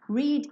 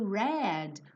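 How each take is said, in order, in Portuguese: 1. A vogal é longa, como reed. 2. A vogal é curta, como red. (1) "tanto no presente" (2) "quanto no passado"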